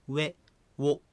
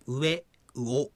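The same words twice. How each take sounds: First: 上 as "we", ウォ as "wo", one syllable each; single beats, "we" for 上 and "wo" for ウォ; one-syllable glides. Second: 上 and ウオ as two vowels each, "u-e, u-o"; split vowels. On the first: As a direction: glide from w straight into the vowel in 上 and ウォ. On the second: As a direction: give the u its own beat in 上 and ウオ. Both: Shown as a demonstration. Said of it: "ではなくて".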